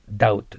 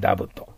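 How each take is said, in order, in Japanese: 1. 真ん中で b の音は発音されません。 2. 真ん中で b の音が発音されます。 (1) "ダウトです。" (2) "でもB を発音してはいけません。"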